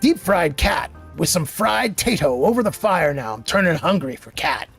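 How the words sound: It is read in a put-on ghoul voice.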